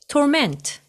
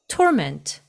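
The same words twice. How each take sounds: First: The stress is on the second syllable. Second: The stress is on the first syllable. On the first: It is used as a verb. "동사일 때는 torment, torment 이음절에 액센트가 있고요" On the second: It is used as a noun. "명사죠. 그래서 torment"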